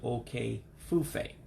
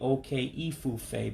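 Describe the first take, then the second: First: The vowel between the two words is dropped. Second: The vowel between the two words is kept. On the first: The speaker calls it right. "but it's actually" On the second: The speaker calls it wrong. "it looks like it would be"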